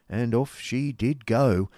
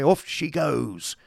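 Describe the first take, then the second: First: Said in the usual way. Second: Slow, drawn-out, high call off she goes; a hearty coachman's departure call; coachman setting off. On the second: A narrator's reading. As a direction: sing out Off as the coach starts.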